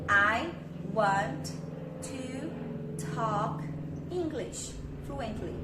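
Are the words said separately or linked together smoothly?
separately. Each word is said separately with small pauses. The speaker calls it wrong. "Eu não falo pausadamente na vida real"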